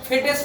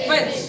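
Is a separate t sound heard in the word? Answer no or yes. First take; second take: yes; no. First: The t is sounded as a separate syllable. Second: The t is silent, one short syllable. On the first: The speaker calls it wrong. "এখানে ফেটেস না হয়ে" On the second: The speaker calls it right. "এই টি একটা silent letter"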